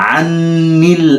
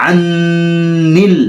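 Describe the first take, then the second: Both takes have the same delivery.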